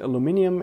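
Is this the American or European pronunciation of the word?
European. It is said with the European pronunciation. "Aluminium is the European"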